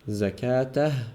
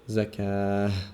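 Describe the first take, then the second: First: The ending is pronounced with a t sound. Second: The ending is pronounced with an h sound. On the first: The word continues into the next word. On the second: The speaker pauses on the word.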